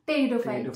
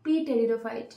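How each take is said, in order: First: The word begins with a T sound, P silent. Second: The word begins with a sounded P before T. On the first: The speaker calls it right. "পি থাকে" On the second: The speaker calls it wrong. "আমি পি টেরিডোফাইট বলতাম"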